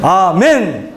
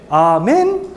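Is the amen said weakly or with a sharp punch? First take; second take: sharp punch; weakly. First: It is said short with a sharp punch. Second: It is said weakly, without force.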